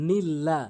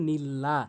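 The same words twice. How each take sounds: Both takes have the same delivery.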